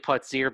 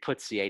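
First: The name is pronounced the English way. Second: The name is pronounced the French way. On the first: This is the official pronunciation. "It's officially Putzier" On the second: The name's French origin suggests this pronunciation. "it's French, and I keep thinking it should be Putzier"

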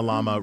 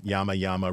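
First: The word begins with an L sound. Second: The word begins with a Y sound. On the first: "Llama, Red Pajama, or is it" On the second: "or is it Yama"

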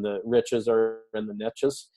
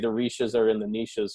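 First: Niches is given an American pronunciation. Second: Niches is given a Canadian pronunciation. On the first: "this is the American pronunciation" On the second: "We would have to say ... in Canada"

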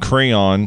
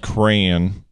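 First: The word does not sound like crown. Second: The word sounds close to crown. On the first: This is the usual way the speaker says it. The speaker calls it right. "Instead of saying crayon" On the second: This is how someone raised in Arizona says it. The speaker calls it wrong. "she says crayon. And that's fucking weird to me"

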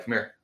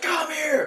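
First: The words are said in a low voice. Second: The words are yelled loudly. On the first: The speaker calls it right. "you could do that with a low voice" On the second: The speaker calls it wrong. "I always hear people yelling at the dogs"

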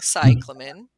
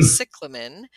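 First: The stress is on the first syllable. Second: The stress is on a later syllable. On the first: "with the C-Y emphasis" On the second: "I think you're saying cyclamen"

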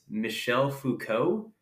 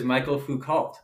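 First: The first name is said as Michel. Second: The first name is said as Michael. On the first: The speaker calls it right. "I think it's Michel Foucault" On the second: The speaker calls it wrong. "I thought he was Michael Foucault"

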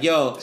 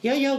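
First: It is said in a rougher, tougher way. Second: It is said in a sweet, gentle way. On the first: The person's real manner is less sweet. "and I'll be like" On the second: An imitation portrays the person as nice. "her impression of me is like a sweet, like a nice version of me"

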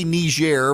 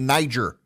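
First: The name is given a non-American pronunciation. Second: The name is given an American pronunciation. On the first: This is how it is now said on TV. "Yeah, they say Niger" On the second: This is the way Americans have always said it. "but I'm an American, so I say Niger"

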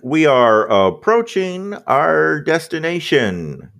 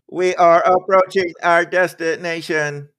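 First: The voice is cheerful and friendly, like cabin service. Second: The voice is cold and flat, like a machine. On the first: The speaker calls it wrong. "Turned into a Delta flight attendant" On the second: The speaker calls it right. "That's better"

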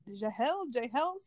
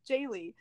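First: The name ends in an 'ol' sound. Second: The name ends in an 'ee' sound. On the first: The speaker calls it wrong. "Am I pronouncing that right" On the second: The speaker calls it right. "It's Jaylee"

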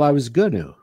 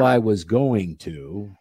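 First: The phrase is reduced and run together as 'gonna'. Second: The phrase is said in full as 'going to'. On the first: "I always say gonna" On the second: "instead of going to"

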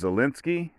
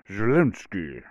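First: The name is said in a plain accent. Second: The name is said in a Russian accent.

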